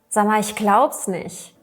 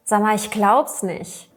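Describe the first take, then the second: First: The words are shortened and run together. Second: The words are shortened and run together.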